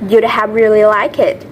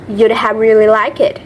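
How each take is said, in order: First: The words you would are contracted to you'd. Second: The words you would are contracted to you'd.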